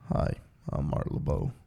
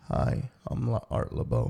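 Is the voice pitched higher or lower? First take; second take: lower; higher. First: The voice is pitched lower. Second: The voice is pitched higher.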